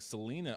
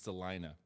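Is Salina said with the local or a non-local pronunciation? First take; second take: non-local; local. First: Salina is said with a non-local pronunciation. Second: Salina is said with the local pronunciation. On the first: The speaker calls it wrong. "I kept mispronouncing it and saying Salina" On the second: The speaker calls it right. "It's Salina"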